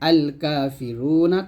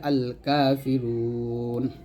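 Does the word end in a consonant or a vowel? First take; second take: vowel; consonant. First: The word ends with a short final vowel. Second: The word ends on a consonant, long vowel stretched. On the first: The reader continues without stopping. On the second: The reader stops on this word.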